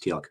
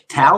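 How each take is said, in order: First: The name is said with a final k sound. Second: The name is said without a final k sound. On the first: The speaker calls it right. "he told me it's pronounced Teal'c" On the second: The speaker calls it wrong. "how do you pronounce this?"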